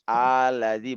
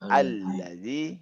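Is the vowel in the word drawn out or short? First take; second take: drawn out; short. First: The vowel in the word is drawn out long. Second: The vowel in the word is kept short. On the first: The speaker calls it wrong. "jangan diperpanjang ya. Allazi bukan" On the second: The speaker calls it right. "tapi allazi allazi ya"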